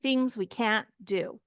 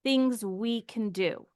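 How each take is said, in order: First: "can't" stressed, full vowel and a stop; emphasized can't in a teaching demo. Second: "can" unstressed, reduced to /kən/; de-emphasized can in a teaching demo; weak can. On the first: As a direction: hit "can't" firmly. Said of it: "And we emphasize the can't". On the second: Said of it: "We de-emphasize the can". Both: Shown as a demonstration.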